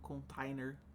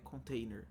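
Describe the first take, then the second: First: The written a is pronounced clearly, as spelled. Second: The word has an English pronunciation. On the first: "tô falando container e dando ênfase para o pessoal digitar certo com A aqui" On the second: "a pronúncia correta, acho que seria container"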